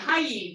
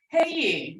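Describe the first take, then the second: First: The word sounds like English 'hi'. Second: The word sounds like English 'hey'. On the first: The speaker calls it wrong. "they were going, hi" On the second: The speaker calls it right. "I'm saying that wrong. It's hey"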